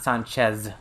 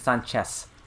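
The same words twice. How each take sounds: First: The name ends with a buzzing Z sound. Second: The name ends with a hissing S sound. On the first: "with a Z" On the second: "with an S"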